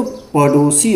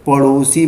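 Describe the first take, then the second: First: पड़ोसी with a hard ḍ; stop-consonant reading. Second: पड़ोसी with a flicked ṛ; flapped consonant. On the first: Teacher reading it as a stop consonant, पड़ोसी as paḍosi. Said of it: "स्पर्श व्यंजन की दृष्टि से". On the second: Teacher reading it by the flap rule, पड़ोसी as paṛosi. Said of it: "द्विगुण और उच्छिप्त व्यंजन के अनुसार". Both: Shown as a demonstration.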